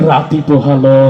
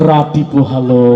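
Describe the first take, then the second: The two takes are said the same way.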